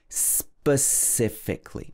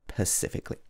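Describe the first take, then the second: First: The word begins with an s sound. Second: The word begins without an s sound. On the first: The speaker calls it right. "It's got a sp at the beginning" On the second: The speaker calls it wrong. "not pacifically"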